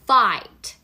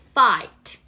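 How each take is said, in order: Both takes have the same delivery.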